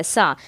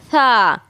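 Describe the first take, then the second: First: सा with a plain hissing s, lower; sharp whistled sa. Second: सा with tongue on teeth, louder; lisped sa. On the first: Teacher contrasting the sheen-style सा, plain hissed. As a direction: give सा the normal whistling s. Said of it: "ये सीन की आवाज़ है". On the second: Teacher showing the correct tha sound for students. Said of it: "इसको बोलेंगे". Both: Shown as a demonstration.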